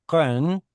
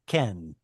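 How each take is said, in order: First: First ken with a k from far back in the throat; kuf pronunciation. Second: Said in the usual way. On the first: Shown as a demonstration. Teacher contrasting kuf with kaf, ken with a back k. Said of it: "originally sounds different than a kaf". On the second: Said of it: "rather than a ken".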